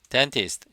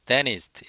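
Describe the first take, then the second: First: The t after n is clearly pronounced. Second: The t after n is dropped.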